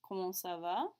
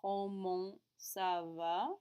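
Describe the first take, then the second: First: Comment ça va? rising on va; rising question. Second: Comment ça va? said very slowly, va rising; slow repeat. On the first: Teacher models the polite question, rising. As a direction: lift va at the end. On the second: Teacher repeats the question very slowly for students. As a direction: drag comment ça va? out for students to copy. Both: Shown as a demonstration. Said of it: "the best choice here".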